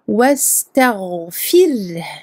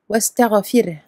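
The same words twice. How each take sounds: First: The gh sound is held and flows smoothly. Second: The gh sound is released quickly with a bounce. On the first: The speaker calls it right. "on va lui donner son temps de raha" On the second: The speaker calls it wrong. "On va pas le lâcher trop vite et faire wester, westerfir. Non. Ici ce serait une qalqala et c'est faux"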